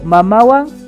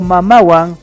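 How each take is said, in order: First: It is said with question intonation. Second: It is said with statement intonation. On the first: It asks: with the mother? "es una pregunta" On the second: It states: with the mother. "es con la mamá"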